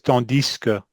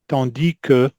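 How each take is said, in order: First: The S is heard, joined onto que. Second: No S sound is heard before que. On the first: "he says tandis que" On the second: "I'm used to"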